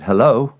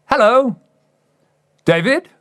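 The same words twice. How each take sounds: First: Said in the usual way. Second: Manager's greeting. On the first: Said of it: "I said". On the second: Retold or imitated. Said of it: "And he goes".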